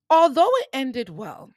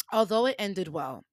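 First: High, loud launch on "Although"; emphatic. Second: Said in the usual way. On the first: Real, not acted. Storyteller turning to the aftermath, emphatic and loud. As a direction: punch "Although" high and loud, then fall. Restarts the line, first take loud.

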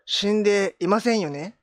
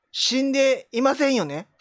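First: 死んでいませんよね drawn out slowly, rising at the end; the same trick question with a rising tune; slow sly question. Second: 死んでいませんよね drawn out slowly, falling at the end; a lightly played fortune teller's trick question; slow sly fortune teller. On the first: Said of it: "あなたはお父さん、". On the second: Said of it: "これ両方使えるから。". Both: Shown as a demonstration.

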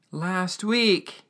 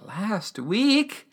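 First: Higher voice falling at the end; imitated sorrowful statement, falling tune; emotional old man. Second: Pitched-up incredulous question; imitated shocked query, rising high; emotional disbelief. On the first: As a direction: break bad news as the old man. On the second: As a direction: echo it as a stunned question. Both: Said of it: "things get super emotional".

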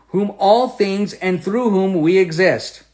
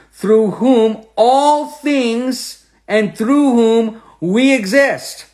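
First: Said in the usual way. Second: Drawn out, higher and louder; slow emphatic reading. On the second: Shown as a demonstration. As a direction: stretch every word like a proclamation.

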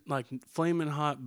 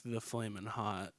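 First: Said in the usual way. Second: THE stressed as the one true brand. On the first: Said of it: "but not, like, the flaming hot". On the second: Shown as a demonstration. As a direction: lean on the word the before flaming hot.

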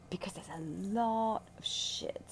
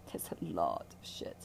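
First: Whispered aside. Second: Lower whispered repeat. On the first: Healer confiding to her listener, whispered aside. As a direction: drop to a breathy whisper on the word shit. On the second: Healer repeating her aside to the listener, hushed lower whisper. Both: Real, not acted.

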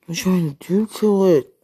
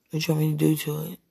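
First: Loud, higher, emphatic question; insistent repeat. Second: Said in the usual way. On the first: Real, not acted. Pressing a lover for an answer, loud and insistent. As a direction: push the question out loud and high.

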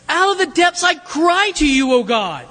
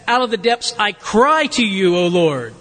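First: Higher, pleading cry to God; desperate cry. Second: Said in the usual way. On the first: Shown as a demonstration. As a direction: cry out as if from the depths. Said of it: "You cry out to people when you're desperate for it". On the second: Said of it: "The difference is really in the way that you would translate this verb and its intensity".

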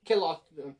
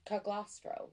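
First: Calostro in an Italian accent, G silent. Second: Caglostro with the G sounded; hard G. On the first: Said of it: "trying to throw in the, the Italian accent". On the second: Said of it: "No, I think the G is silent". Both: Shown as a demonstration.

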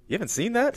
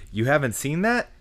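First: High, disbelieving rising question; incredulous uptalk. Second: High rising catchphrase question; uptalk. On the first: Retold or imitated. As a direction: mimic a shocked friend asking that. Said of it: "they go". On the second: Pretend. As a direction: say the show title with a rising lilt. Names the grading scale.

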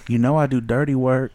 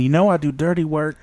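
First: Sultry stripper line. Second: Husky dancer line with a breath at the end; mock seductive whisper-tone; breathy sultry stripper quote. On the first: Retold or imitated. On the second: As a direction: seduce him, finish on a breath. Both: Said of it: "she even hit that breath at the end".

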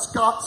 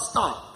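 First: "Scott" with a k sound after the s; town name said wrong. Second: "Scott" said as "Stott", with a t after the s; town name corrected. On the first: Preacher correcting the town's name, "Scott" said with an SK start. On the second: Preacher clarifying his parents' town, "Scott" said as "Stott". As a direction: say "Scott" with ST at the start instead of SK. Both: Shown as a demonstration. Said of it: "Not Scott, Scott".

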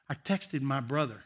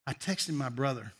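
Both takes have the same delivery.

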